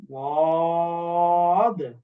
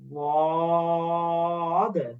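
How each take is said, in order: The two takes are said the same way.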